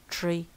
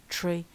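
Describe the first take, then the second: No difference in how they are said.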